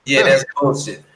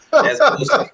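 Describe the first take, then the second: First: Said in the usual way. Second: Much higher, mocking squeal of disbelief; high-pitched scoff; scoffing dismissal. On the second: Real, not acted. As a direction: jump way up into an incredulous squeak. Scoffing at a traveler claim.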